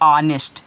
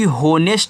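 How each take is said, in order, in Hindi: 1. इस शब्द की शुरुआत स्वर से होती है, इसमें h नहीं है। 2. इस शब्द की शुरुआत एक बोले जाने वाले h से होती है। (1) "हमेशा साइलेंट रहता है" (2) "गलत उच्चारण हो गया"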